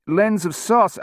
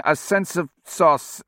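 First: "lens of sauce" said for "sense of sauce", rising; misheard line. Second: "a sense of sauce" said slowly as a correction; corrected line. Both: A narrator's reading. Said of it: "earphones started feeding him lines".

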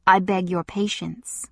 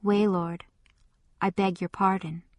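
First: Icy, controlled reply; cold. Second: Subdued, soft apology; humbled. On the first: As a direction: keep the anger cold and level. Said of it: "he responded still very coldly". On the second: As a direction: back down, head bowed. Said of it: "he bowed his head a little and said". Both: A narrator's reading.

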